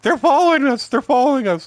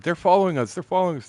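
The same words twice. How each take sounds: First: High, loud frantic mock worry; mock paranoid panic. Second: Mock paranoid. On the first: Paranoid buddy in the car fears being followed, high mock panic. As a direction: ham up the friend's paranoid panic. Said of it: "he was worried that the Mexicans were following us". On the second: Paranoid buddy fears being followed, high mock worry. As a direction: ham up the friend's jumpy fear. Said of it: "John was all paranoid".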